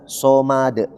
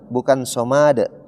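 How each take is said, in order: First: The second vowel is short and quick. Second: The second vowel is drawn out long. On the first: The speaker calls it right. "ma-nya jangan sampai dikasih panjang" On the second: The speaker calls it wrong. "Bukan somad. Sering kita dengar somad, padahal ma-nya tidak panjang"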